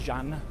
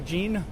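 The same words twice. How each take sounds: First: The name is pronounced the French way. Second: The name is pronounced the English way.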